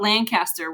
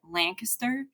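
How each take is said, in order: First: It is said with the Missouri pronunciation. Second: It is said with the local Pennsylvania pronunciation. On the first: This is how it is said in Missouri. "we used to call it Lancaster when I grew up in Missouri" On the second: This is how locals in Pennsylvania say it. "but here they call it Lancaster"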